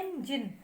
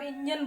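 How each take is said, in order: First: engine said EN-jin, leaning a little on EN; slight stress on first syllable. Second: engine run together as "INN-jan"; common mispronunciation. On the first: Shown as a demonstration. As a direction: separate engine into two clear syllables, EN then jin. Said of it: "जरा सा stress देते हैं". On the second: Retold or imitated. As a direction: say engine with short "in" and a dull "jan". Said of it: "जैसे आप engine बोल देते हैं".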